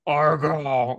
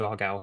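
First: The name is said harshly and forcefully. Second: The name is said softly and gently. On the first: "It was really quite aggressive" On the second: "the less aggressive version of that name"

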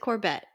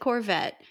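First: The middle consonant is pronounced as a B. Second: The middle consonant is pronounced as a V. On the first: The speaker calls it wrong. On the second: The speaker calls it right.

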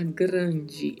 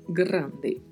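First: The final syllable is said like 'dji'. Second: The final syllable is said like 'de'. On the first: The speaker calls it wrong. "A gente nunca vai falar grande em espanhol, porque este som do de não existe" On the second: The speaker calls it right. "Então temos que falar grande"

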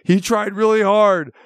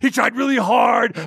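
First: It is said in the speaker's ordinary voice. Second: It is said in a put-on wrestler voice.

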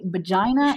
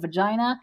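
First: The word begins with a b sound. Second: The word begins with a v sound. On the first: The speaker calls it wrong. "I still have troubles with my V's and my B's" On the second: The speaker calls it right. "instead of"

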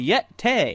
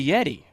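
First: The word ends with an 'ay' sound. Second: The word ends with an 'ee' sound.

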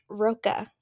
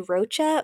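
First: The middle consonant is a hard K sound. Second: The middle consonant is a soft ch sound. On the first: "like a K, like a hard K" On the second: "some people called them they call her Lacey Rocha"

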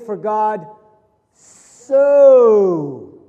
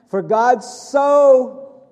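First: The word so is strongly stressed. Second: The word so is not stressed.

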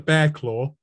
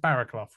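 First: The name is said as two syllables, like 'Bearclaw'. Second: The name is said as three syllables, 'Barraclough'. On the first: This is how the name is said in the US. The speaker calls it wrong. "as he's known, which is honestly the most ridiculous" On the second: This is how the name is said in the UK. The speaker calls it right. "I want to pronounce his name properly"

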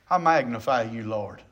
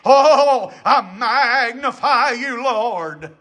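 First: It is said in a plain, steady voice. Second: It is said in a shaky, preacher-like tone.

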